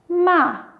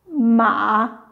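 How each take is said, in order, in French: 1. La hauteur tombe brutalement de haut en bas. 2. La hauteur plonge bas, puis remonte.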